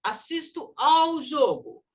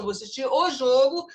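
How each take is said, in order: First: Slow, with "ao" higher and punched; stress on "ao". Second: "o" punched loud as the wrong article; stress on "o". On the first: Shown as a demonstration. Teacher showing the correct preposition, stressing "ao". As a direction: hit "ao" hard as the correct form. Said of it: "porque assiste-se ao jogo". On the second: Acted. Teacher quoting a student's faulty essay, stressing "o". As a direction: quote the essay, leaning hard on "o". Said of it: "Você escreveu uma redação".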